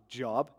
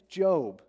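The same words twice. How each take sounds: First: The vowel is short, like in 'rob'. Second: The vowel is long, like in 'robe'. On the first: "it's not Job" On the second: "You just add a silent E to his name"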